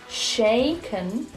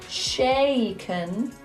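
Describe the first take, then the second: The two takes are said the same way.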